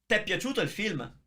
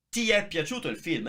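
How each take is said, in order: First: Ti and è merge into one syllable. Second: Ti and è are said as separate syllables. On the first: This is how people speak naturally. "if you're speaking, blend things" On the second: This is the written form. "if you're writing, you should write ti è piaciuto"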